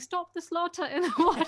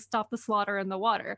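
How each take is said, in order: First: It is said in an English accent. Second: It is said in an American accent.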